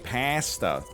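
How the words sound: It is said the Canadian way. "In Canada, we say pasta"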